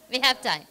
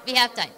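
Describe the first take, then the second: No difference in how they are said.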